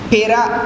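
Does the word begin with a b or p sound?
p. The word begins with a p sound.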